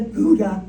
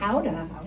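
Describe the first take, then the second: First: The word begins with a hard G sound. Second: The word begins with a breathy H-like sound.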